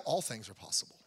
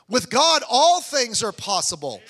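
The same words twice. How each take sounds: First: "all things are possible" said soft and lower, falling away; soft, low echo. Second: "all things are possible" proclaimed loud and slow, "all" hit hard; booming proclamation. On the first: Pastor to congregation, quietly echoing "all things are possible". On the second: Preacher to his congregation, booming slow "all things are possible". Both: Shown as a demonstration.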